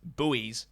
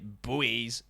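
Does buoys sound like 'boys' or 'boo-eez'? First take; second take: boo-eez; boo-eez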